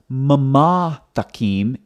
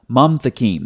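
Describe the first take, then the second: First: The first word is said with two syllables. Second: The first word is said with one syllable. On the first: The speaker calls it wrong. "it's not mama thakim" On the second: The speaker calls it right. "it's mam thakim"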